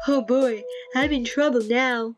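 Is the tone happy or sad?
sad. It is said in a sad tone.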